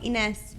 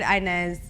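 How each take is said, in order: First: The name is said with a Spanish pronunciation. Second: The name is said with an American pronunciation. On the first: "Spanish people call me Ines" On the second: "That's like the Americanized way or whatever"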